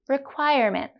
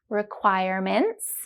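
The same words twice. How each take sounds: First: It is said at a normal, natural speed. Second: It is said very slowly, stretching the ending. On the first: "Then we'll say them naturally" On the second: "The first time we'll go very slowly with focus on the ending sounds"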